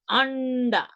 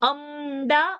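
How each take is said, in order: First: The nasal before d is an n sound. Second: The nasal before d is an m sound. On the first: The speaker calls it right. "We say Anda" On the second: The speaker calls it wrong. "We don't say Amda"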